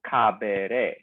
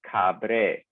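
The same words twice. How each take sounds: First: Caberé said slowly as the wrong regular form, with the e kept; the incorrect caberé, spelled out slowly as a mistake; caberé drawn out to show the error. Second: Cabré said slowly, the e dropped, with a falling tune; cabré stressed on the last syllable, the right way; the correct cabré, drawn out and clear; correct form cabré. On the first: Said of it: "you don't go caberé". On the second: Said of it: "Instead, it's cabré". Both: Shown as a demonstration.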